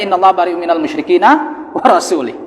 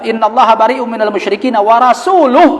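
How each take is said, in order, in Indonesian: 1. Kata terakhir berakhir dengan bunyi 'ih'. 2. Kata terakhir berakhir dengan bunyi 'uh'. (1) "dia membacanya" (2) "kalau dia membacanya"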